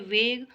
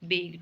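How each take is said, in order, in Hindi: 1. शब्द वेग v ध्वनि से शुरू होता है। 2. शब्द वेग b ध्वनि से शुरू होता है।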